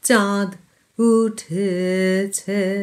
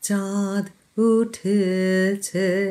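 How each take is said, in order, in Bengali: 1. প্রথম শব্দের পরে একটু ছোট বিরতি আছে। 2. প্রথম শব্দের পরে একটু ছোট বিরতি আছে।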